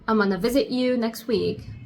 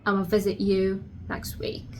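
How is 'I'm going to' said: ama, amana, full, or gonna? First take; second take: amana; ama. First: 'I'm going to' is squeezed into 'amana'. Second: 'I'm going to' is shortened to 'ama'. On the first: "you can say also amana" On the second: "another pronunciation of that, which is ama"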